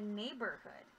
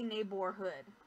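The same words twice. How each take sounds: First: The middle syllable has a reduced 'er' vowel. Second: The middle syllable has a full 'or' vowel. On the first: The speaker calls it right. "We said neighborhood. ... It went from or to er" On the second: The speaker calls it wrong. "we did not say neighborhood"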